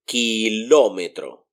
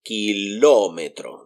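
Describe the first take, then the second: First: Kilómetro with the weight on LÓ; stress on LÓ. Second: Kilómetro, LÓ clearly strongest; stress on LÓ. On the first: Teacher showing the accented syllable of the word. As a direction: lean on LÓ in Kilómetro. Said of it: "So if I want to read this, I would say". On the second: Teacher repeating the word to show its stressed syllable. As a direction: hit LÓ in Kilómetro. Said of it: "That's the strongest one there". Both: Shown as a demonstration.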